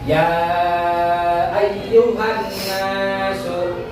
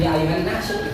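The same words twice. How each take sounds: First: The vowel in 'ya' is held long. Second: The vowel in 'ya' is cut short. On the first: The speaker calls it right. "ini dibaca panjang" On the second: The speaker calls it wrong.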